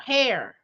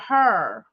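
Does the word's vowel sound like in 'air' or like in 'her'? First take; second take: air; her. First: The vowel sounds like the one in 'air'. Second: The vowel sounds like the one in 'her'. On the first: The speaker calls it right. "you know, hair" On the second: The speaker calls it wrong. "because I'm from saying or her"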